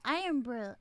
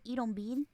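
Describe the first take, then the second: First: The name has a standard English pronunciation. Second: The name has a Puerto Rican Spanish-influenced pronunciation. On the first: "but it's" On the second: "my Puerto Ricanness, they we pronounce it"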